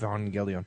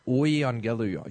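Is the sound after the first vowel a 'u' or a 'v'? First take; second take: v; u. First: The second sound is a consonant v. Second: The second sound is a vowel u. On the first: "started pronouncing it like a V" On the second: "the U was pronounced like a U"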